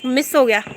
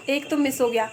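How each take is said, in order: First: Louder exclamation of miss हो गया; loud, exclaimed miss हो गया; loud dismay. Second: Said in the usual way. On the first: Real, not acted. Cracker failed to go off.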